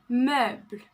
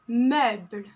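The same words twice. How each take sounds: No difference in how they are said.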